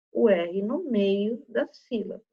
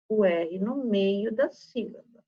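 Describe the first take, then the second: No difference in how they are said.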